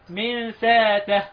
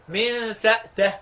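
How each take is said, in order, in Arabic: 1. الهمزة تُستبدل بألف مدّ طويلة. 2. الهمزة مغلقة ولا يأتي بعدها حركة. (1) "ابدل الهمزة الف حرف مد" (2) "من سأته سكون الهمزة"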